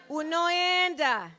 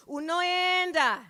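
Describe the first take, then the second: No difference in how they are said.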